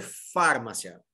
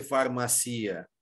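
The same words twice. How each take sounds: First: "farmácia" said FAR-ma-sya, first syllable punched; stress on first syllable. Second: "farmácia" said far-ma-SEE-a, stressed on the I; wrongly stressed I. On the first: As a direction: hit FAR hard in "farmácia" and let the rest drop. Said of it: "minha sílaba tônica ser a primeira". ("farmácia" com tônica no FAR, FÁR-ma-cia) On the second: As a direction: demonstrate "farmácia" with a drawn-out stressed I before the final A. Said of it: "o i não tá acentuado". ("farmácia" dita far-ma-CI-a, tônica no I) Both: Shown as a demonstration.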